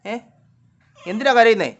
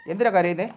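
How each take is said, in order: First: Loud, high question to a pet; insistent repeat. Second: Said in the usual way. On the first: Real, not acted. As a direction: demand an answer, voice raised. Repeats question after no answer.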